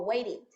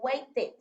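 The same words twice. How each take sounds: First: The ending vowel sounds like 'i'. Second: The ending vowel does not sound like 'i'. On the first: The speaker calls it right. "la E va a sonar como una I" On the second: The speaker calls it wrong. "No vamos a decir"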